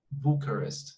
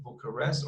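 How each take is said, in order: First: Bucharest as BOO-kuh-rist; stress on first syllable. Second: Bucharest as boo-kuh-REST; stress on last syllable. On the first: Teacher showing the less popular pronunciation, first syllable stressed. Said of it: "Bucharest is the less". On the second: Teacher showing the more common pronunciation, final syllable stressed. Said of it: "we can say it Bucharest or". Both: Shown as a demonstration.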